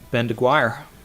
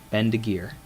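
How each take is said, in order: First: The surname is not said as 'DeGear'. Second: The surname is said as 'DeGear'. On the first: The speaker calls it wrong. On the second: The speaker calls it right.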